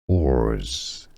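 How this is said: Said with an American accent, R sound pronounced. "in American English the R is actually pronounced"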